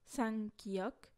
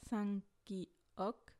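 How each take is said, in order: First: Sangkiok said with a rising tune; rising listing take. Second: Sangkiok repeated calmly, closing down; settled repeat. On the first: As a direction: ask it out, voice lifting on sangkiok. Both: Shown as a demonstration. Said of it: "Cinq sangjaeum, double consonne".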